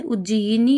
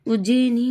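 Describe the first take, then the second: First: उज्जयिनी with separate yi, uj-ja-yi-nee; correct full form. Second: उज्जैनी in three syllables, uj-jai-nee; common wrong form. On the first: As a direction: sound every syllable of उज्जयिनी. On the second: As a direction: contract उज्जैनी to a jai sound. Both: Shown as a demonstration. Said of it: "उज्जयिनी होता है".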